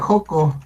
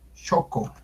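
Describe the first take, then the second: First: It begins with a harsh h-like sound. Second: It begins with a ch sound. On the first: The speaker calls it wrong. "me da risa porque lo pronuncian bien, mal" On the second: The speaker calls it right. "Se debe pronunciar Choco"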